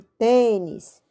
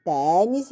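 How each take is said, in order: First: Tênis with closed, nasal "tay"; slow tênis, first vowel kept closed. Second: Tênis with a wide open "teh"; slow Tênis, first vowel open. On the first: Teacher comparing open and closed sounds, closed ê second. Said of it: "e o som fechado". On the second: Teacher comparing open and closed sounds, open é first. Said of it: "O som aberto". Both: Shown as a demonstration.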